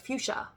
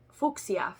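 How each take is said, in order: First: It is pronounced the usual American way. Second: It is pronounced the way Europeans say it.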